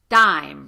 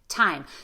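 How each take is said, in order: First: The T is soft, with little puff of air. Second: The T is released with a strong puff of air. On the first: The speaker calls it wrong. "producing T more on the back of your teeth and with less of that pop of air" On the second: The speaker calls it right. "Instead of"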